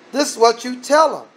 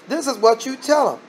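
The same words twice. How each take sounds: The two takes are said the same way.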